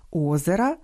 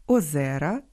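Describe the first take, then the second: First: Озера with stress on the first syllable, O-ze-ra. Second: Озера with stress on the middle syllable, o-ZE-ra; stress on second syllable. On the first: Host shows genitive singular of lake, first-syllable stress. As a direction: punch the opening о of озера. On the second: Host shows nominative plural of lake, middle-syllable stress. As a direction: lean on the е of озера. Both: Shown as a demonstration. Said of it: "Часом омографами стають і недалекі родичі".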